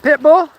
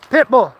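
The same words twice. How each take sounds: First: Pit bull asked with a rising tune, a bit louder; questioning prompt. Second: Pit bull said firmly with a falling tune; firm model. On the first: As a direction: coax it out of the dog as a question. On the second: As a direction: show the dog the answer, settled and final. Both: Shown as a demonstration. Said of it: "Use your words".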